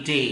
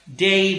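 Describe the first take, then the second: First: डे said as a flat pure e; wrong flat de. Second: डे drawn out slowly with an ei glide; correct diphthong day. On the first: Teacher contrasting the wrong version, flat डे. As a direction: cut डे short with no glide. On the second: Teacher modelling the right sound, slow gliding डे. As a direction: stretch डे into dei. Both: Shown as a demonstration. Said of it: "ना कि डे".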